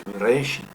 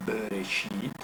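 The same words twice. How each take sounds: First: "Bereshit" stressed on the middle "re"; misplaced stress. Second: "Bereshit" with a long stressed final "shit"; stress on last syllable. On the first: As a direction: hit "re" in "Bereshit", leaving the last syllable short. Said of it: "no es Bereshit". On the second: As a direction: draw out and stress the end of "Bereshit". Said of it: "ahí pongo el tono de la voz". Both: Shown as a demonstration.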